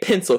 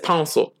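First: The word is pronounced in the standard way. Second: The word is pronounced in an odd, distorted way. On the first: The speaker calls it right. "this motherfucker can't say pencil" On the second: The speaker calls it wrong. "He says pencil"

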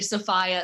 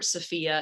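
First: The name is said with the local pronunciation. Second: The name is said as it reads on paper. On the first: The speaker is from the area. "local yokels say Sophia" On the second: The speaker is not from the area. "if you're not from here and know how to read"

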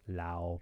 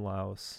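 First: The word ends without any S sound. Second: The word ends with an audible S sound. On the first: The speaker calls it right. "I'm going to pronounce it right. Lao, probably. It's probably better" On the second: The speaker calls it wrong. "I shouldn't pronounce the S"

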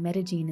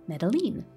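First: The double L is said the local Paisa way. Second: The double L is said as an English L. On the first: The speaker calls it right. "in la manera muy paisa paisa" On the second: The speaker calls it wrong. "will treat the double L as we do in English"

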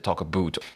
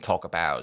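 First: The word about sounds like 'a boot'. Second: The word about is said in a standard way. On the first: "Does she have the Canadian accent as in" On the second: "rather than saying talk about"

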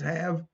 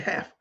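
First: The word ends with a voiced v sound. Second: The word ends with a voiceless f sound. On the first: This is the standard English form. "I know it's have" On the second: This is the regional, colloquial form. "but we tend to say half, H-A-F-F, phonetically"

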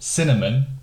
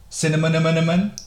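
First: The word is said in its standard form. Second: The word is said with extra sounds added. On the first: "instead of saying cinnamon" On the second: "he used to call it cinnamon"

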